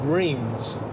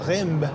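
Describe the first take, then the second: First: It is said with an English-style pronunciation. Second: It is said with a French-style pronunciation. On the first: This is how people in the UK say it. "as we say in the U K" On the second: This is how people in France say it. "or Reims in France"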